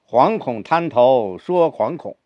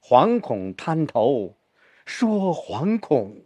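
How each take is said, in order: First: Both 惶恐 are said with equal weight. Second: The second 惶恐 is said more heavily.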